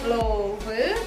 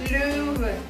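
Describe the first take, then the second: First: The first vowel is a plain open 'o'. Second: The first vowel is an 'e' with rounded lips. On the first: The speaker calls it wrong. "Jadi bukan der Löwe" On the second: The speaker calls it right. "tapi Löwe. O-nya lebih kecil"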